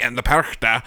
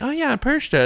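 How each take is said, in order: First: Lightly voiced old German woman; old German lady. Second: High-pitched imitation of a kid; kid's voice. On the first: Cohost imitating a video's German speaker, old German lady voice. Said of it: "this old German lady will be like". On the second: Cohost imitating a kid pronouncing the name, high child voice. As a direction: pipe it up high like a child in a video. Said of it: "So a kid will be like".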